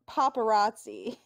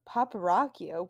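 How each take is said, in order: First: The word ends with a 'tsee' sound. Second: The word ends with a 'kee-oh' sound. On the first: The speaker calls it right. "Why can't they just say paparazzi?" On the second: The speaker calls it wrong. "Naoki keeps saying it wrong"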